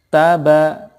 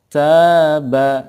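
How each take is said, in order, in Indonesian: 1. Kedua vokal itu pendek. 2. Vokal pertama dibaca panjang. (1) "tidak ada fathah yang diikuti alifnya. Nah, berarti dua-duanya dibaca pendek" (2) "ada alifnya setelah ta. Nah, oleh karena itu dibaca panjang"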